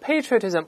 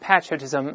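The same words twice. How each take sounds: First: It is said with an American pronunciation. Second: It is said with a British pronunciation. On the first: "美国读成patriotism" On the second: "英国人读成patriotism"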